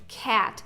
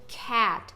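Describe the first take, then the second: The two takes are said the same way.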